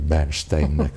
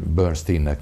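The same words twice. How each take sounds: First: The name is said the Hungarian way. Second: The name is said the English way. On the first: This is how Hungarians say the name. "mi Bernsteinnek mondjuk" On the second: This is how the name's owner says it. "ön Bernsteinnek mondja a nevét"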